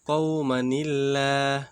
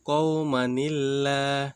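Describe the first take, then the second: First: The words are joined by a linking 'ni' sound. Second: The same.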